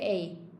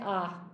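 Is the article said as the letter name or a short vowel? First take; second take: letter name; short vowel. First: The vowel sounds like the letter name A. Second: The vowel is short, not the letter name. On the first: "I normally say A personally, as in like A, B, C" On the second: "some people say ah"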